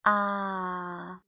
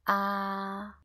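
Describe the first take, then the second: First: Long "Ah" sagging slightly from its starting pitch; drawn-out "Ah" that fails to stay level; incorrect first tone. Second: "Ah" held on the same pitch from start to end; perfectly level, sustained "Ah"; first tone. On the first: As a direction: let "Ah" slip gradually downward. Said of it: "We cannot say it like this". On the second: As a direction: keep "Ah" horizontal, never sagging. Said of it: "pitch from the beginning to the end". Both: Shown as a demonstration.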